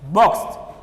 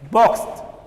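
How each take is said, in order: The two takes are said the same way.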